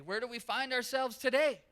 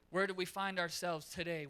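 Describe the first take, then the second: First: Higher, louder pressing question; preacher pressing the congregation to answer; louder emphatic repeat. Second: Said in the usual way. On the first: Real, not acted. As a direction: push the question home.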